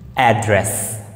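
It is said with an American accent. "American English"

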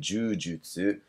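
It is said with a Japanese pronunciation. "In Japanese, we say jujutsu"

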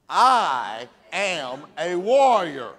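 It is said firmly and forcefully. The speaker truly means it. The speaker calls it right. "say it like you mean it"

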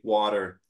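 It is said in an American accent. "Americans say water"

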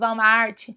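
It is said with a Brazilian Portuguese pronunciation. This is how people say it in Brazil. "no Brasil, tudo bem falar, eu também falo Walmart"

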